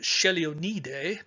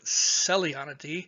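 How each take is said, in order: First: The name is said the Italian way. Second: The name is said the speaker's own way. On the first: "My Italian friend pronounced it" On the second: "I pronounce it"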